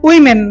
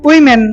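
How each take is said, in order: The two takes are said the same way.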